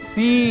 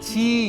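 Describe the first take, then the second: First: It starts with an s sound. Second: It starts with a ch sound. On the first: The speaker calls it right. "ছি না, সি" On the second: The speaker calls it wrong. "অনেকে বলে ছি, ছি না"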